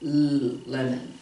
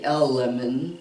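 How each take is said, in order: First: The letter is said as a short 'l' sound. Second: The letter is said as its name, 'el'. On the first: The speaker calls it right. "I say L lemon" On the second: The speaker calls it wrong. "I don't say L lemon"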